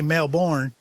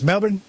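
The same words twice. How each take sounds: First: The ending rhymes with Osbourne. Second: The ending does not rhyme with Osbourne. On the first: The speaker calls it wrong. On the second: The speaker calls it right.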